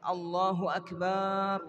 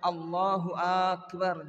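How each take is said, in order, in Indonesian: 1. Suku kata ba pada Akbar dipanjangkan. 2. Vokal pembuka pada Akbar dipanjangkan. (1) "Atau baknya yang dipanjangkan" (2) "Atau akbar"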